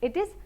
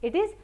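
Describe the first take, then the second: Both takes have the same delivery.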